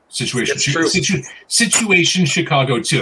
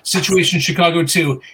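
First: The phrase is said at a slower, clearer pace. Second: The phrase is said fast with slurred words.

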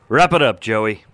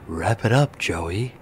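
First: It is said in his normal voice. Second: It is said in a put-on NPR host voice.

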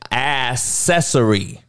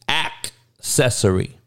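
First: The first consonant after the a sounds like s. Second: The first consonant after the a sounds like k. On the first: The speaker calls it wrong. "You motherfuckers are saying accessory. It ain't that word" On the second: The speaker calls it right. "Act like it's a K in there instead of a C"

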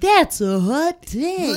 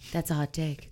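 First: It is said in a showy radio-announcer voice. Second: It is said plainly, as a simple acknowledgement.

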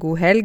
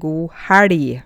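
First: It is said in standard Norwegian pronunciation. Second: It is said in the speaker's local dialect. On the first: "Jeg sier ikke god helg" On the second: "men jeg sier god helg"

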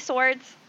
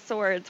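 First: The word is said in a plain, neutral tone. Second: The word is said in a suggestive, knowing tone. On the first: Real swords are meant. "are they actually swords?" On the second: Something other than real swords is hinted at. "Wink, wink, wink, wink"

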